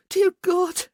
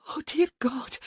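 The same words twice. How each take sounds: First: High and loud cry; ecstatic cry. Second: Whispered, breathless and high; breathy whisper. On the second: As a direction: whisper it in ecstasy. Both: A narrator's reading. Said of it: "she chanted".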